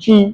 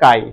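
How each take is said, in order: First: It begins with a ch sound, rhyming with 'see'. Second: It begins with a k sound, rhyming with 'eye'. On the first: "স্পেলিংটা সিএইচ আই" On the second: "কিন্তু প্রোনাউন্সিয়েশনটা কাই"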